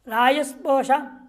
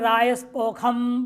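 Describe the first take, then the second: First: The second word has a sh sound. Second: The second word has a kh sound.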